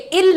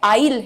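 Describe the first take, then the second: First: It is said with a short 'i' vowel, like 'ill'. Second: It is said with the 'eye' vowel, like 'aisle'. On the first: The speaker calls it wrong. "ये इल नहीं है" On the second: The speaker calls it right. "ये I'll है"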